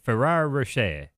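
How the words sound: It sounds French, with the last syllable dropped.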